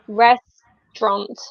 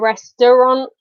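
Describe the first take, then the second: First: The word is said with two syllables. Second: The word is said with three full syllables. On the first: The speaker calls it right. "I guess it's just two syllables" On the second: The speaker calls it wrong. "We don't say"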